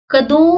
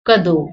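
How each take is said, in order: First: कदों with a nasal o, rising; कदों ending through the nose. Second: कदों with a plain o, falling; कदों with a bare o; no nasal. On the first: Teacher shows कदों with bindi, nasal o. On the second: Teacher shows कदों without bindi, plain o. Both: Shown as a demonstration. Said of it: "दोनों में फर्क पड़ रहा है".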